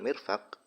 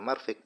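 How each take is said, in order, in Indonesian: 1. Vokal pertama adalah i, yang kedua adalah a. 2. Vokal pertama adalah a, yang kedua adalah i. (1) "dibaca kasroh mimnya mirfaq, dan dibaca fathah huruf fa-nya" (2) "mimnya dibaca fathah, fa-nya dibaca kasroh, sehingga menjadi marfiq"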